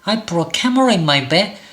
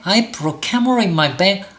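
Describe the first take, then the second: Both takes have the same delivery.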